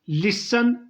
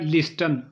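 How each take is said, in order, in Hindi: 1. बीच का t silent है। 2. बीच का t बोला जाता है। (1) "टी साइलेंट होता है" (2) "जो अक्सर लोग पढ़ते हैं"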